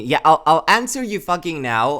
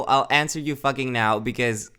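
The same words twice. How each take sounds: First: Louder, exasperated Australian-free rant at chat; exasperated raised voice answering chat. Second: Said in the usual way. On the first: Real, not acted. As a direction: blurt it out, fed up and loud. Exasperated reply to chat DM nag.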